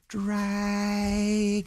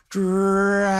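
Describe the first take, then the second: First: It is said softly. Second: It is said a little louder.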